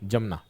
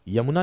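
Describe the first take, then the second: First: The name begins with a j sound. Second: The name begins with a y sound. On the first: The speaker calls it right. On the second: The speaker calls it wrong. "यमुना नहीं"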